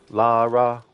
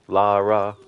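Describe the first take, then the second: The two takes are said the same way.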